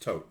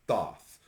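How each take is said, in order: First: The name begins with a plain 't' sound. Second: The name begins with a 'th' sound. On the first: The speaker calls it right. "It is pronounced Toth" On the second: The speaker calls it wrong. "not Thoth"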